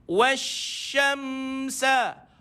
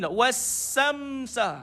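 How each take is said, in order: First: The word is said with a spread 'sh' sound. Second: The word is said with a plain 's' sound. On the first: The speaker calls it right. "Dia mesti kena datang sifat dia, iaitu tafashi" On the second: The speaker calls it wrong. "dia pergi pada sin"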